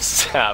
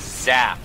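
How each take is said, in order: First: The word begins with a hissing S sound. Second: The word begins with a buzzing Z sound. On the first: This is the usual way to say it. "instead of" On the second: This is how the co-caster habitually says it. "the thing that I like that you say is zap"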